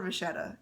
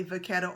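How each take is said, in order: First: "vachetta" with a soft sh, va-SHET-ta; French-style "vachetta", ch as in vache; French pronunciation. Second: "vachetta" with a hard k, va-KET-ta; Italian-style "vachetta", ch sounded like k; Italian pronunciation. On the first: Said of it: "or the French way". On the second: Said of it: "say it the Italian way". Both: Shown as a demonstration.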